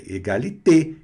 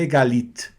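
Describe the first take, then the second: First: Égalité with a closed final é. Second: Égalité said with the final é swallowed; dropped final e. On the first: Teacher modelling égalité for the class. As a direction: end égalité on a crisp closed é. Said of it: "a pronúncia fechada". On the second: Teacher showing the wrong égalité to students. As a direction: clip the end of égalité as a wrong example. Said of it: "e não é". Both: Shown as a demonstration.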